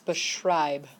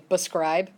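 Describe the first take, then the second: First: The middle cluster is pronounced with an 'sh' sound. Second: The middle cluster is pronounced with an 'sk' sound. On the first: The speaker calls it right. "It's beschreib" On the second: The speaker calls it wrong. "a lot of people will say bescribe, but that's not it"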